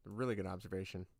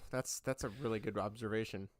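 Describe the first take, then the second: First: Much softer, quicker repeat of "A really good observation"; "A really good observation" said again as a soft, quick, lower aside; quiet fast echo. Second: Said in the usual way. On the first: Shown as a demonstration.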